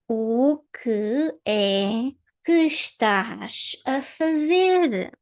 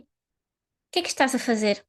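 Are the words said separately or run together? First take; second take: separately; run together. First: Each word is said separately and clearly. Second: The words are run together with syllables reduced. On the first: The speaker calls it wrong. "The first way, the way I, I read it, is robotic" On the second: The speaker calls it right. "we can just say"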